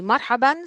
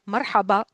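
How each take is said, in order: First: The word ends with a final n sound. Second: The word ends on a vowel, no n. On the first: "sometimes they say marhaban" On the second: "they are dropping the tanween"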